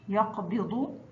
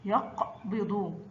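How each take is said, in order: First: Said in the usual way. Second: يقبض slow, split after the closed يق; sukun mid-word. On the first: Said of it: "وسط كلمة يقبض". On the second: Shown as a demonstration. Teacher models qaf mid-word, يقبض slow and split. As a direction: say يقبض drawn out, stopping on vowelless ق. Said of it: "وسط الكلمة مثل".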